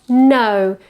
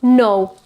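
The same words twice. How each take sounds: First: "no" starting on schwa, gliding to u; central diphthong. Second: "no" starting on a rounded back o; wrong back vowel. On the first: Teacher showing it starts with schwa, central diphthong. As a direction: say "no" as nuh-oo in one glide. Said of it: "it's quite central". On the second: Teacher rejecting what we tend to say, back vowel. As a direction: say "no" with a full o, as the mistake. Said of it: "it's not no". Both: Shown as a demonstration.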